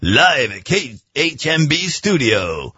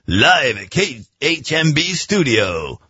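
First: It is said in a radio-announcer voice. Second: It is said in a radio-announcer voice.

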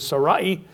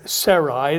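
First: The name is said the original way. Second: The name is said the familiar English way. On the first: This is the actual pronunciation. "The actual pronunciation is Sarai" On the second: This is how people usually say it. "we'll probably pronounce it Sarai"

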